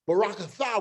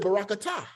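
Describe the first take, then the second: First: The last consonant is a soft th sound. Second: The last consonant is a hard t sound. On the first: This is the older way the speaker grew up with. "I prefer the T H, the thigh" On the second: This is the modern way people say it. "now when you're using the modern, people say"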